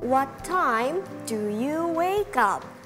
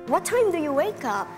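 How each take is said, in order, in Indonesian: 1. Diucapkan dengan pelan dan hati-hati. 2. Diucapkan dengan kecepatan percakapan yang normal.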